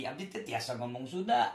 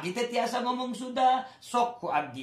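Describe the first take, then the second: First: Lower, softer Sundanese repeat; softer Sundanese accent. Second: Higher, sing-song Sundanese lilt; Sundanese accent. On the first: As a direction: say it again quietly in Sundanese. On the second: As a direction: show off a Sundanese accent with a rising tune. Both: Shown as a demonstration. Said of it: "Saya tahu bahasa Sunda".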